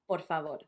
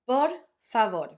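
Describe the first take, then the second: First: The two words run together without a pause. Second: There is a pause between the two words. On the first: The speaker calls it right. "You would be just saying por favor" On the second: The speaker calls it wrong. "you would not be making that pause"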